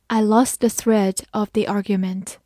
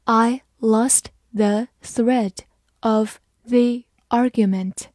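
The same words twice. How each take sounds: First: Said in the usual way. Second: Slow, in two chunks; slow reading. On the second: Shown as a demonstration. Teacher reading slowly in two parts for the class. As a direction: read it slowly, pausing after thread. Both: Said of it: "好，慢慢来读。".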